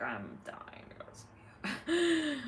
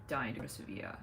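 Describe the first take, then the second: First: "dying to go to Sevilla" drawn out slowly, lifting high; emphatic longing. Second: Said in the usual way. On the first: Real, not acted. Streamer tells viewers of wanting Sevilla, emphatic longing. Repeats her wish for emphasis.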